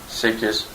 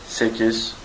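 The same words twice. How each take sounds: Both takes have the same delivery.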